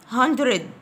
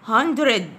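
The two takes are said the same way.

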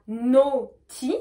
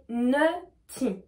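First: Naughty slowly, with a clear o; slow model naughty, not nutty; O vowel. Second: Nutty slowly, with an "eu" vowel; slow model nutty, not naughty. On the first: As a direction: draw out the o of naughty. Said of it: "on va prononcer O". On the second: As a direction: draw out the uh of nutty. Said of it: "on va prononcer E U". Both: Shown as a demonstration.

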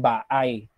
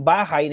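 First: "baay" drawn out, the H gone; dropped H. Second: Said in the usual way. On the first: Shown as a demonstration. Teacher showing how "bahay" loses its H, slow demo. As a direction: say "baay" with no H, two open a sounds, slow. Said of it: "Yung bahay, nagiging baay". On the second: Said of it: "nagiging baay".

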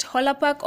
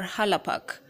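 First: "Hola Park" with an o in the first syllable; first pronunciation variant. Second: "Hala Park" with an open a in the first syllable; alternative pronunciation. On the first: Vlogger asking viewers which name is right, o-vowel in "Hola". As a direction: say "Hola Park", opening on "Ho", not "Ha". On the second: Vlogger offering viewers the other name, a-vowel in "Hala". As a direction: say "Hala Park", opening on "Ha", not "Ho". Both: Shown as a demonstration. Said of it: "Whichever way you want to pronounce it".

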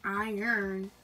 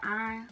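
First: "iron" in two careful syllables, r sounded; standard "iron". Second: "iron" with the r dropped, Southern style. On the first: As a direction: say "iron" slowly as "eye-ern". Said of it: "Like, y'all would say iron". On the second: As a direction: say "iron" as one syllable, like "ahn". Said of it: "y'all would say iron, but I'd be like". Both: Shown as a demonstration.

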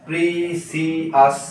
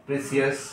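First: precious drawn out slowly in three separate syllables. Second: Said in the usual way. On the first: Shown as a demonstration. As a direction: break precious into three slow, distinct beats. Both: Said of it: "এটাও try syllable".

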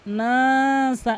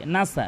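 First: নাসা with the first vowel drawn long and slow; correct pronunciation. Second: নাসা clipped short, no stretch on the first vowel; wrong pronunciation. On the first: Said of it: "এভাবে কিন্তু টেনে পড়বেন". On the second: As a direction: say নাসা quickly without lengthening. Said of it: "নুন কিন্তু টেনে পড়ে না". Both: Shown as a demonstration.

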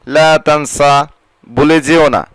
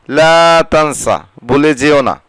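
No difference in how they are said.

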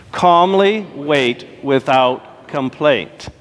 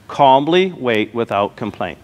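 First: "Calmly wait without complaint" drawn out very slowly with the congregation; slower recitation. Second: Each word of "Calmly wait without complaint" said slowly and evenly; slow recitation. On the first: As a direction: chant it together, very slowly. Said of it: "Say it now". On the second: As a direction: lead the congregation, slow and deliberate. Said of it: "I want you to say that with me". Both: Shown as a demonstration.

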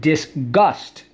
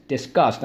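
First: "disgust" in two clear beats, dis, gust; emphatic, split "disgust"; careful pronunciation. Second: Said in the usual way. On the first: Shown as a demonstration. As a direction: separate the syllables of "disgust", with a clear g. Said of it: "I know it sounds the same". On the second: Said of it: "people say it so quickly".

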